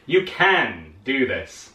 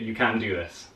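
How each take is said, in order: First: It is said in an enthusiastic tone. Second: It is said in a flat, plain tone.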